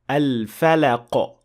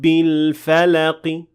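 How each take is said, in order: First: The word ends with no vowel at all. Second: The word ends with a faint i vowel. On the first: The speaker calls it wrong. "with a complete sukun" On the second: The speaker calls it right. "about one third of that kasra"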